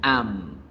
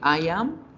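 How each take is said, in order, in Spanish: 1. Se acorta en una sola sílaba contraída. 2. Se pronuncian dos palabras completas separadas.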